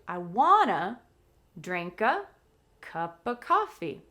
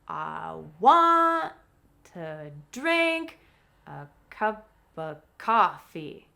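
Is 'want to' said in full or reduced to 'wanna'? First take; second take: reduced; full. First: The words 'want to' blend into 'wanna'. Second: The words 'want to' are said in full. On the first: "if we relax even more, it changes to" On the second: "the key words, the verbs, and the key content word like coffee are stressed"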